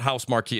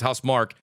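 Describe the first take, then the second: First: The name ends with a 'kee' sound. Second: The name ends with a plain 'k' sound. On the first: The speaker calls it wrong. "I always say it wrong. It's not House Marquee" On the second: The speaker calls it right. "it's House Mark"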